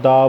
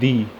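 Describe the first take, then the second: First: The vowel is a short 'uh' sound. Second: The vowel is a long 'ee' sound. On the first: "दा बोलता हूँ" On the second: "एक होता है दी"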